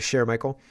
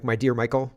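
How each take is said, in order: First: "Cher" said the French way, "shair"; French Cher Michael. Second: Said in the usual way. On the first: Shown as a demonstration. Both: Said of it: "but she doesn't say Cher Michael".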